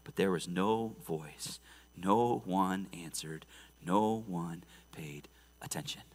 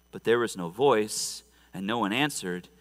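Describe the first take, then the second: First: Much lower and softer, slowing to a whisper; hushed and slow. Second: Said in the usual way. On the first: A narrator's reading. Preacher dwelling on Baal's silence, slow hushed whisper. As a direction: let the silence land, whispering.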